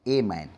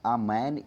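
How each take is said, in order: First: The article 'a' is said as 'ay'. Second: The article 'a' is said as 'uh'. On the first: The speaker calls it wrong. "हम तो basically इसको ए पढ़ते हैं" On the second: The speaker calls it right. "इसको असल में पढ़ना क्या है"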